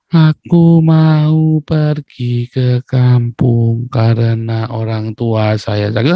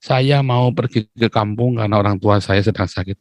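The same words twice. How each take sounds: First: Very slow, drawn-out syllables, almost chanted; mock-gentle Javanese. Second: Said in the usual way. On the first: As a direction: stretch every syllable into an exaggerated polite plea. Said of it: "itu baru lembut". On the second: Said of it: "Mau ngomong aja".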